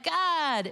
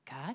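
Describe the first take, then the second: First: It is said a bit louder, excitedly. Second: It is said quietly and hesitantly.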